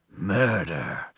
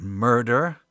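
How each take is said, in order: First: Lower, drawn-out mock drama; mock-ominous echo. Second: Said in the usual way. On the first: Host echoing the crime for effect, mock-ominous. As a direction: echo it as a playful dark sting.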